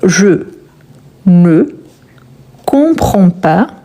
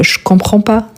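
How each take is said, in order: First: The word 'ne' is fully pronounced. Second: The word 'ne' is dropped entirely.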